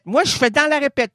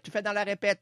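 First: Pitched up, louder protest; outraged self-defense; indignant higher voice. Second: Hushed reply; softer imagined voice. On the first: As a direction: protest it loudly. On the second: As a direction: answer back quietly. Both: Acted. Alternating voices in dialogue.

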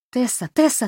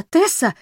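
First: Quick excited string of calls; rapid chattering. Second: High loud call of the name. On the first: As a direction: rattle the name off fast and high. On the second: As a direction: call her sharply, louder. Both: A narrator's reading. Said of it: "затараторила та".

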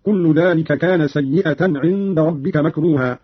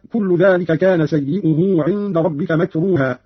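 First: "سيئة" said "sayyi'atan"; fatha and ta. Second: Said in the usual way. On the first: Shown as a demonstration. Teacher demonstrates Qalun's reading, "سيئة" ending in -atan. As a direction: open the hamza and sound the ta in "سيئة". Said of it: "بفتح الهمزة وتاء بعدها". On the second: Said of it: "قرأ قالون بفتح الهمزة".

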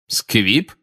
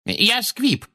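First: Short, rising, doubtful echo; suspicious query. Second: Very high, thin woman's voice; explaining witness. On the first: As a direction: repeat the word as a suspicious question. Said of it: "переспросил Фадж, подозрительно и разглядывая". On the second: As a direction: explain timidly, high-pitched and falling at the end. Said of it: "объяснила миссис Фигг". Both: A narrator's reading.

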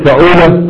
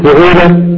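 First: فعولة said fa-'uu-la with a on the first letter; fa'ula with a. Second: فعولة said fu-'uu-la with u on the first letter; rounded u on the first letter of فعولة; fu'ula with u. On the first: Teacher to students, فعولة said with a on the first letter. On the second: Teacher to students, فعولة said with u on the first letter. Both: Shown as a demonstration. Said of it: "قل".

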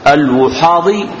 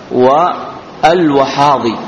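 First: الوحاضي as al-Wuhadi, u after waw; damma on waw. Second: والوحاضي as wa al-Wahadi, a after waw; fatha on waw. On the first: Teacher contrasts two allowed readings, damma on waw. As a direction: give الوحاضي its u vowel. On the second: Teacher contrasts two allowed readings, fatha on waw. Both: Shown as a demonstration. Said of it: "ويجوز فتح الواو".

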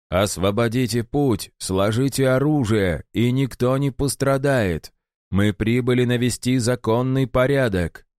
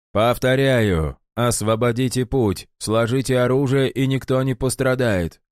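First: Stern order, raised voice. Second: Weary, calm repeated order; tired but unshaken. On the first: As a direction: command them to stand down. Sergeant orders the barricade. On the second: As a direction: repeat it wearily, unmoved. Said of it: "Голос сержанта звучал устало, но невозмутимо". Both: A narrator's reading.

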